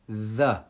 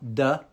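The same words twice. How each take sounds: First: It starts with the tongue between the teeth. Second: It starts with a d sound. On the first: The speaker calls it right. "you see the tongue" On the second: The speaker calls it wrong. "It's not the, because that's a D"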